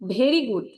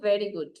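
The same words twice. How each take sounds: First: Very starts with a hard, breathy bh sound. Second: Very starts with a sound between v and b. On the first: The speaker calls it wrong. "আমরা যদি বলি ভেরি good" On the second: The speaker calls it right. "আমি যদি বলি ভেরি good, দুটা কি একরকম শোনালো? না।"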